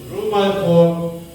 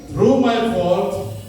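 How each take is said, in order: The two takes are said the same way.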